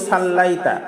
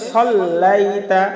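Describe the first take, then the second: First: সাল্লাইতা with a light open স; wrong সাল্লাইতা. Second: সাল্লাইতা with a full heavy স, a little slow; correct সাল্লাইতা. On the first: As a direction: say it the common wrong way. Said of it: "সাল্লাইতা বললে ভুল হয়ে যাবে". (ভুল উচ্চারণে সাল্লাইতা) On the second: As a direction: round the স of সাল্লাইতা. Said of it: "বলতে হবে". (সঠিক মোটা স দিয়ে সাল্লাইতা) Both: Shown as a demonstration.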